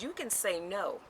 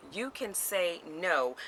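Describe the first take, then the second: First: Said in the usual way. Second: "You can say no" at half speed, each word separate; emphatic repeat. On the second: Real, not acted. Speaker makes sure listeners heard, slow deliberate "You can say no". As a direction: spell out "You can say no" very slowly. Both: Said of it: "Did y'all hear what I just said?".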